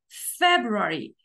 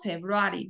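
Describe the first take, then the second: First: The stress falls on the first syllable. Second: The stress falls on a later syllable. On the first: The speaker calls it right. "decimos February" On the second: The speaker calls it wrong. "No decimos February"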